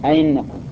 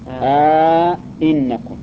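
First: The second glottal stop is softened, no lengthening. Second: Both glottal stops are full, with a long vowel between. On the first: "تسهيل الثانية أئنكم سهلة، خليها بين الياء والهمزة" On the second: "إدخال ألف بينهما ... هذا على التحقيق"

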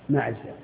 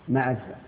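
No difference in how they are said.

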